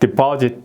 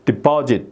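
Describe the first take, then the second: First: The p is moderate, between 'peo' and 'ppu'. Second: The p is exaggerated, close to a tense 'ppu'. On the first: "퍼하고 뿌하고 사이 정도?" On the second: "제가 과장을 좀 하면은 deposit"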